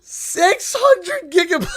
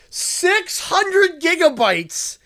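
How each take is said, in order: First: High, loud and slow through laughter; laughing shout. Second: Stretched out slowly in disbelief; slow and disbelieving; slow incredulous emphasis. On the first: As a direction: cry it out laughing in disbelief. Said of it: "I'm laughing". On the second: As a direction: drag out each word, still amazed. Stunned by the huge gift. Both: Real, not acted.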